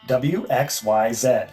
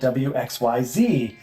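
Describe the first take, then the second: First: The last letter does not rhyme with the others. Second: The last letter rhymes with the others. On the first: "I found out is pronounced Z" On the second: "because it rhymed"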